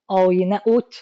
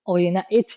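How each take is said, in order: First: آینه ات with a rising question, ات sounded as "at"; آینه ات as a doubtful "at"; wrong reading, fatha. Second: آینه ات with a rising question, ات sounded as "et"; آینه ات as a doubtful "et"; wrong reading, kasra. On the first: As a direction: try آینه ات as "at", asking. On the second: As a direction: try آینه ات as "et", asking. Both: Shown as a demonstration.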